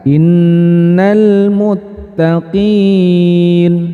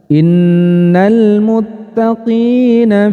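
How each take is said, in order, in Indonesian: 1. Nun akhir dimatikan setelah vokal yang dipanjangkan. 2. Nun akhir diberi harakat dan bacaan terus mengalir. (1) "nunnya nun hidupnya disukunkan kemudian dibaca panjang" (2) "saat saya baca tadi dengan diwasolkan atau dilanjutkan"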